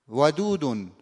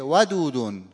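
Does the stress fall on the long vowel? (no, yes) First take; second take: yes; no. First: The stress falls on the long vowel. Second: The stress falls away from the long vowel. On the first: The speaker calls it right. "روی کشیده نبر واقع میشه" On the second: The speaker calls it wrong. "اینا همه نبرای غلطه"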